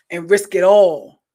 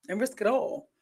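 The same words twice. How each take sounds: First: Loud, slow punchline: and risk it all; emphatic warning. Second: Softer repeat of and risk it all; quiet echo. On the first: Friend warning about cheating, loud and slow. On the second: Friend's warning echoed softly to herself. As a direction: let it sink in, softer. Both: Retold or imitated. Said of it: "she be like".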